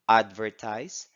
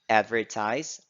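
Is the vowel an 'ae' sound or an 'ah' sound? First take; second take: ah; ae. First: The vowel is an open 'ah' sound. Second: The vowel is the American 'ae' sound.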